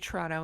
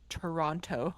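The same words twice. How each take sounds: First: The second t sound is dropped. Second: The second t sound is clearly pronounced. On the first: This is how locals say it. "hear us say Toronto" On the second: This is how outsiders say it. "instead of Toronto"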